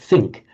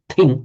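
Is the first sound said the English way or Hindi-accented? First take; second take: English; Hindi-accented. First: The first sound is said the standard English way. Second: The first sound is said with a Hindi-speaker accent. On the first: It is the standard English way. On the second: It is how some Hindi speakers say it.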